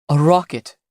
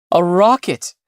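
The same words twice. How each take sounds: First: Said in the usual way. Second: Rising, louder joyful shout of "A rocket"; excited cry. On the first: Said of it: "he said, standing up". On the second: A narrator's reading. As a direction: call out "A rocket" in disbelieving joy. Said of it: "he cried".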